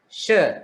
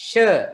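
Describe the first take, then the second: The two takes are said the same way.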